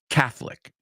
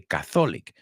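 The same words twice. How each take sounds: First: The middle o is silent, giving two syllables. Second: The middle o is pronounced, giving three syllables. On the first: The speaker calls it right. "La O no se pronuncia" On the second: The speaker calls it wrong.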